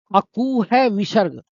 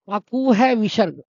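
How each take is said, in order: First: अकू है विसर्ग said slowly, word by word; slow recitation. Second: Said in the usual way. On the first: Shown as a demonstration. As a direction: spell out the formula slowly for memorising. (सूत्र को धीरे-धीरे रटवाते हुए) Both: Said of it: "सब बोलेंगे".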